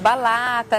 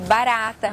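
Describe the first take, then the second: First: The middle consonant is an L sound. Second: The middle consonant is an R sound. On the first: A small child's version of the word. The speaker calls it wrong. "geralmente fa falam ... balata" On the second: The intended adult word. The speaker calls it right. "para ... barata"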